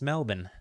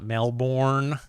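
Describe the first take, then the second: First: It is said with an Australian-style pronunciation. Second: It is said with an American-style pronunciation. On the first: The speaker calls it right. "It's Melbourne. ... sounds like it has an Australian accent baked into it if you say it properly" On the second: The speaker calls it wrong. "not Melbourne like uh, most Americans"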